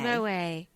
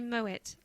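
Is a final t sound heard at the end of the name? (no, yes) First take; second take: no; yes. First: The name ends on a vowel with no t. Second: The name ends with a clear t sound. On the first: It is a casual short form of the name. "saying Moe for short" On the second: It is the full form of the name. "we all know it's Moet"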